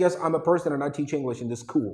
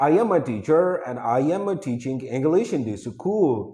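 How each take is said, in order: First: Teacher's model English accent on "I teach English in this school"; "real" English accent. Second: Demonstrated learner's local accent in English; wrong English accent. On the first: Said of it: "this is the real accent". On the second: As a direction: say English with a faulty, non-native accent. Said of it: "wrong हो गया ना?". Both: Shown as a demonstration.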